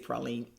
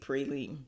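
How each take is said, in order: First: Praline is said the local New Orleans way. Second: Praline is said the way outsiders say it. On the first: This is how locals say it. The speaker calls it right. "we say praline out here" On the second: This is how people elsewhere say it. The speaker calls it wrong. "You guys say praline"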